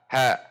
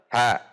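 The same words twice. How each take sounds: Both takes have the same delivery.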